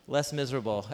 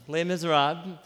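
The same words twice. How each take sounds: First: "less miserable" said as plain English words, a mangled title; "less miserable" spoken like English "less", punning; butchered title pun. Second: "Les Miserables" said lay mee-zer-AHB, French style; the proper "Les Miserables" as lay mee-zer-ahb; French title. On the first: Pastor jokingly mangling the title for his congregation, "less miserable". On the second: Pastor naming the novel to his church, French-style "Les Miserables". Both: Shown as a demonstration. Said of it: "to butcher the name".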